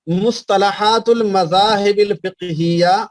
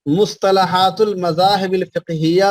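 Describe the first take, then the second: First: Slow, spaced out for writing down; slow dictation. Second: Said in the usual way. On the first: Shown as a demonstration. Teacher dictating a book title to students, slow and spaced. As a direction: spell the title out slowly so they can copy it. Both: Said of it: "اس کا حوالہ بھی لکھ لیجئے".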